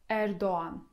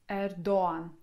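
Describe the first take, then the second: No difference in how they are said.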